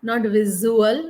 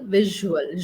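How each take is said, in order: First: The middle consonant is not a soft 'zh'. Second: The middle consonant is a soft 'zh' sound. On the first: The speaker calls it wrong. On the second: The speaker calls it right.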